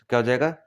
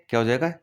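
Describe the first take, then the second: The two takes are said the same way.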